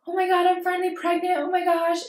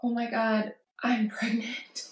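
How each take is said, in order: First: High, fast, bubbly burst of joy; excited news. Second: Soft, tearful whisper with a broken laugh; half-sob it, barely voiced; crying. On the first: Retold or imitated. Calling her sister with happy pregnancy news, high and excited. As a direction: squeal it out like you just saw the positive test. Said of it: "I've called her with, like". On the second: Calling her sister in tears, whispered crying news. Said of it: "And I've cried her with, like".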